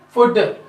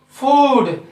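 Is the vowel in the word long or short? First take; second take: short; long. First: The vowel is said short. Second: The vowel is said long. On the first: The speaker calls it wrong. "So not a food" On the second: The speaker calls it right. "We have to use the time much longer"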